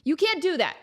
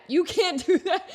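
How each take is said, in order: First: Whispered protest. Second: Said through a laugh; laughing protest. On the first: Acted. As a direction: hiss it back under the breath. Protesting after whispered news. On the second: Real, not acted. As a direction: protest while cracking up.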